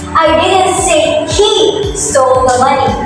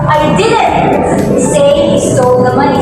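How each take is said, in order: First: The word he carries the stress. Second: The word didn't carries the stress. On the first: Someone else may have taken it. "this emphasizes on the word he" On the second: The speaker denies ever saying it. "put the emphasis or the stress on the word didn't"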